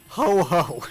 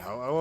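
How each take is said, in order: First: The second syllable starts with an h sound. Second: The second syllable starts with a vowel. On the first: The speaker calls it wrong. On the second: The speaker calls it right.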